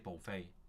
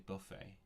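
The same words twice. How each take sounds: First: It is said with an American pronunciation. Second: It is said with a British pronunciation.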